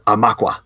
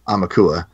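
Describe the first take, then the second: First: The word is said with three syllables. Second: The word is said with four syllables. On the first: "like three syllables" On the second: "most people say"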